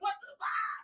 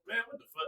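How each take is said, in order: First: It sounds amazed and excited. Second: It sounds annoyed and negative.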